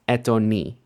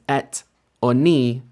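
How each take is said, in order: First: The two words run quickly together as one. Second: The two words are said separately. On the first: The speaker calls it right. "really kind of quickly together as if it were one word" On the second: The speaker calls it wrong. "not going to necessarily be pronounced as"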